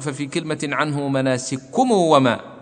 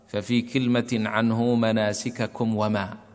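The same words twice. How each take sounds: First: The k sounds merge; the m gets an added u. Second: Both k sounds are pronounced separately, unmerged. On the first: No reciter ever read it this way. The speaker calls it wrong. "فلا بد أن نقول ... وهذا ما قرأ به أحد" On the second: It matches an accepted reading. The speaker calls it right. "فالصحيح أن نقرأ بدون إدغام"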